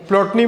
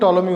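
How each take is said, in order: First: The initial P is pronounced. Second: The initial P is silent. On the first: The speaker calls it wrong. "प्लॉटनी बोलते हैं" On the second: The speaker calls it right. "लेकिन टॉलमी होता है, उसका pronunciation पीक silent रहता है"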